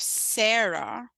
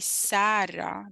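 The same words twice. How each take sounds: First: The first vowel has the usual English sound. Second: The first vowel has the Sudanese Arabic sound. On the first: The speaker calls it wrong. "instead of Sarah" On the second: The speaker calls it right. "if you get the A right"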